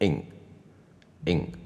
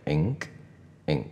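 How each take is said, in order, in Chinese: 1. 最后的k音很轻，几乎不爆破。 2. 最后的k音清楚地爆破。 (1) "所以会变成ink" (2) "但是我不要这个音"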